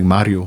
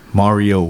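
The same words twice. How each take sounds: First: The name has a Spanish-style pronunciation. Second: The name has an English-style pronunciation. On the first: Listeners do not understand the name. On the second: Listeners understand the name.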